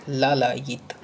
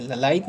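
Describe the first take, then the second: First: लालायित with long first aa, syllable by syllable; corrected vowel length. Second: ललायित with a short first a; wrong vowel length. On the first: Teacher giving the correct word, लालायित with long vowels. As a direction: stretch laa-laa-yit in लालायित. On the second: Teacher showing the mistake, ललायित with short first vowel. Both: Shown as a demonstration. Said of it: "ललायित नहीं होता है".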